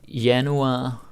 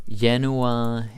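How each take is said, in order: No difference in how they are said.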